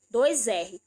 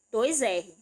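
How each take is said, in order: The two takes are said the same way.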